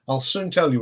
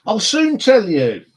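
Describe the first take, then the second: First: Said in the usual way. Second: Drawn out, higher and louder, a sing-song tease; teasing. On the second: Acted. Holding back news from Rob, playful teasing drawl. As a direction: dangle the secret in front of Rob.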